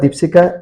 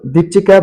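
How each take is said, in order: First: The middle syllable starts with an sh sound. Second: The middle syllable starts with a ch sound. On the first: "ୱେଷ୍ଟରେ ସି H I କୁ ପ୍ରନାଉନ୍ସିଏସନରେ ସି ବୋଲି କୁହାଯାଏ" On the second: "ଚିକୁ sir ରୁ ଚି"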